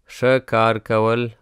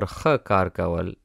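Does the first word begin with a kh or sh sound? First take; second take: sh; kh. First: The first word begins with an sh sound. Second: The first word begins with a kh sound. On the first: "You can say sh" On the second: "or you can say kh"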